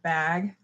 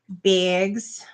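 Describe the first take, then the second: First: The vowel is a plain, unaccented A sound. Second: The vowel is the Minnesotan-accented A sound. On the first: "instead of bag" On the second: "We say bags instead of bag"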